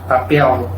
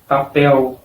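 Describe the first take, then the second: First: The word ends with an L sound. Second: The word ends with a U sound. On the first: This is how it sounds in some other regions. "en regiones donde la L tiene sonido de L en portugués" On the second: This is how it sounds in the speaker's region. "en mi región, el sonido es de papel, papel, sonido de U"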